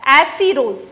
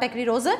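First: एसीरोज said firmly as e-see-roz, no k sound; teacher corrects to एसीरोज, e-see-roz, with no k; correct pronunciation. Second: एक्रीरोज with a k sound, ek-ree-roz, the mistaken version; quietly cite the wrong form एक्रीरोज; wrong pronunciation. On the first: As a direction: land एसीरोज as e-see-roz, the fixed version. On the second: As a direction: say एक्रीरोज as ek-ree-roz, the slip being corrected. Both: Shown as a demonstration. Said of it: "sorry, एसीरोज, not एक्रीरोज".

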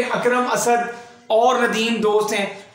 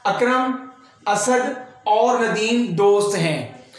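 First: "अकरम Asad" run together, then "और नदीम दोस्त हैं"; names without comma. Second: "अकरम", short break, "असद", then "और नदीम दोस्त हैं"; comma pause between names. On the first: Teacher showing students the missing comma, "Akram Asad" said as one. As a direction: join "Akram Asad" like one person's name. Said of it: "अगर यहाँ पे comma इस्तेमाल ना किया जाता". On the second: Teacher reading students the example, "Akram" and "Asad" separated. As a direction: slowly set "Akram" and "Asad" apart as two names. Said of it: "यहाँ पे comma इस्तेमाल ना किया जाता". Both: Shown as a demonstration.

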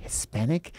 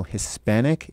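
First: Softer, higher, questioning insinuation on "Hispanic"; pointed insinuation. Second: Said in the usual way. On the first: Retold or imitated. Mimicking the interviewer's remark, softly insinuating "Hispanic" with a rise. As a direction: say "Hispanic" as a loaded, rising question. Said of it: "says it in a, you know, in a way". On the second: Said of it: "anyone ever tell you you look".

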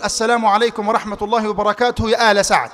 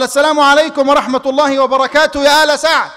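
First: Chanted, intone the greeting at the door. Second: Louder greeting. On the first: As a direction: Prophet greeting Saad's household, chanted. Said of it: "فسمعت النبي يقول". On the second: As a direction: call the greeting a bit louder. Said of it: "قال". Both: Retold or imitated.

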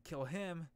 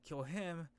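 The two takes are said the same way.

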